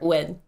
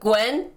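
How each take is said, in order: First: It is said quickly with less oo sound. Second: It is said slower with a longer oo sound. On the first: The speaker calls it right. "like faster Gwen" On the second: The speaker calls it wrong. "You know the Gwen character"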